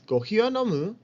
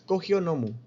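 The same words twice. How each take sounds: First: The pitch rises at the end. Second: The pitch stays flat to the end. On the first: The speaker calls it right. "se pronuncia con entonación ascendiente" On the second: The speaker calls it wrong. "No es"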